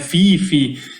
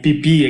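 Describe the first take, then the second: First: The name begins with an f sound. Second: The name begins with a p sound. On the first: "ouve diversas formas de falar" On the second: "que é o mais correto"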